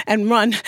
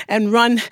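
No difference in how they are said.

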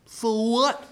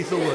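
First: High, dismissive question; bratty retort. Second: Said in the usual way. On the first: Acted. Cursed girl refusing to answer the door, high bratty retort. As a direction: push the pitch up insolently.

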